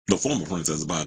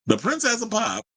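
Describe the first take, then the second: First: Former leaned on, lower and dry; stress on former. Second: The Princess of Pop, announced high and grand; mock grand title. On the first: Shown as a demonstration. Host correcting herself, stress on former. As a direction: put the weight on former to take the title away. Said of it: "she ain't really the princess no more". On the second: Host mockingly crowning the singer, hammed-up grand voice. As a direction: hype the title up like an emcee.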